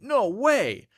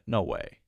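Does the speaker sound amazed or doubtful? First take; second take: amazed; doubtful. First: It sounds amazed and excited. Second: It sounds doubtful and unconvinced. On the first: That's a crazy, surprising thing. "what I'm really saying is that's crazy" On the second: I actually don't believe you. "that's dif- disbelief"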